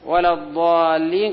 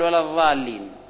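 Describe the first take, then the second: First: The word has the emphatic dad sound. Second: The word has a zha sound made between teeth.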